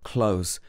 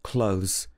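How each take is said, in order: Both takes have the same delivery.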